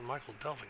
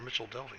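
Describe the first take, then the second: First: The first word sounds like Michael, with a k. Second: The first word sounds like Mitchell, with a ch. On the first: The speaker calls it wrong. "I used to pronounce it Michael Delving" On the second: The speaker calls it right. "I believe it's called Mitchell Delving"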